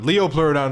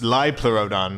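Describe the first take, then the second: First: The name begins with a long 'leo' sound. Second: The name begins with a short 'lip' sound. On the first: The speaker calls it wrong. "the mispronouncement" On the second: The speaker calls it right. "the actual correct term"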